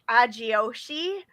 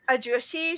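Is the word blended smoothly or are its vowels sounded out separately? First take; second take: sounded out; blended. First: Each vowel is sounded out separately. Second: The vowels blend together smoothly.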